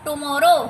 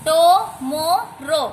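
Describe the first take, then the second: First: Said in the usual way. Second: "tomorrow" slowly as टु, मा, रो; teacher sounding out "tomorrow" with clear gaps; syllable split. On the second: Shown as a demonstration. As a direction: break "tomorrow" into three separate beats. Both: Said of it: "बोल के repeat करके देखना है".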